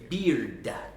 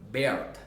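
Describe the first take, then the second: First: The vowel sounds like the vowel in 'ear'. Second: The vowel sounds like the vowel in 'air'. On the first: The speaker calls it right. "Around, punch it, kill it" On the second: The speaker calls it wrong. "we might accidentally say Baird"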